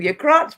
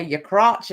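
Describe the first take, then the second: First: High, loud Brooklyn yell of "Your crotch"; shouting. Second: Light imitation of a broad Brooklyn "Your crotch"; broad Brooklyn accent. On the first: Retold or imitated. Shouting "Your crotch" back at her on the panel. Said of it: "That's why I was shouting". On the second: Imitating a friend on panel in broad Brooklyn accent. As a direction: mimic her Brooklyn "Your crotch", not loud. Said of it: "in a really broad Brooklyn accent".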